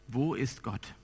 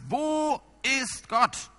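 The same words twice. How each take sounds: First: The question is asked at normal loudness. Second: The question is shouted at full volume. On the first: The question is first asked calmly. "er fragt ihn" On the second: The asker is now furious and intimidating. "der Pastor brüllt ihn diesmal an"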